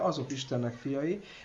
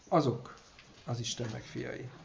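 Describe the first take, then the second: First: The word 'azok' carries no special emphasis. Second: The word 'azok' carries strong emphasis. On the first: Those led by the Spirit are God's children, stated generally. "Ezt lehet úgy általában is" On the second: Only those led by the Spirit are God's children. "ez a helyes hangsúly, amit mondtam"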